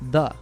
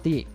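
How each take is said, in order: First: The vowel is reduced to a schwa. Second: The vowel is said fully and clearly. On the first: "had its vowel reduced to a schwa, so the" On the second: "not the"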